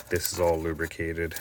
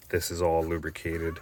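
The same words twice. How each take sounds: The two takes are said the same way.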